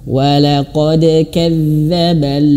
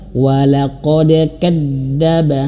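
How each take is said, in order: First: The dh sound flows with continuous voice. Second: The dh sound is pressed tight and cut off. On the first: The speaker calls it right. "Lebih tepatnya dia mengalir suaranya" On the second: The speaker calls it wrong. "ini keliru ya"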